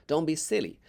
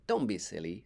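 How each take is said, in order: First: Put-on a lightly raised, brisk girl's voice; Billy's voice. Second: A slightly lower, gentle motherly tone; mom's voice. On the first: Billy teasing Jack on the plank, lightly voiced. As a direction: nudge your friend along, slightly louder. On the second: Acted. Mom comforting Jack, lightly voiced. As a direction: soothe him, not tease.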